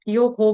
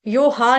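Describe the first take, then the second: First: The final breath release echoes an 'o' vowel. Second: The final breath release echoes an 'a' vowel. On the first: The speaker calls it right. "यो हो बोलेंगे" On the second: The speaker calls it wrong. "यो हा नहीं बोलेंगे इधर"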